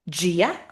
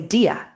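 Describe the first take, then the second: First: The word begins with a J-like sound. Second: The word begins with a plain D sound. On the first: "there's a reason why the D sounds like a J" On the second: "Some people might say dia"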